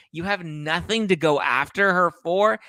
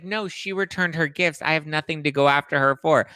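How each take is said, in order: First: Higher, rising, mocking disbelief; incredulous. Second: Said in the usual way. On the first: Real, not acted. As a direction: throw his words back at him. Mocking repeat of his quote. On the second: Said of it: "he was like".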